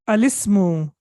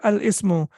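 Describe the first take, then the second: First: Al runs straight into ismu without a stop. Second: A glottal stop separates al from ismu. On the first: The speaker calls it right. "How do we pronounce it?" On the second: The speaker calls it wrong. "Please don't say Al Ismu"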